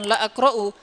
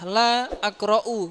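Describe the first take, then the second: First: The vowel of 'la' is cut short. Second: The vowel of 'la' is drawn out long. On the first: The speaker calls it wrong. "bukan la akra'u" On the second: The speaker calls it right. "barangkali yang benar adalah la akra'u"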